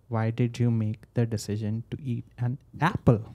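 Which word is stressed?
apple. The word "apple" carries the strongest stress. It questions whether something else should have been eaten. "When I say apple, you're like, should I have eaten something else?"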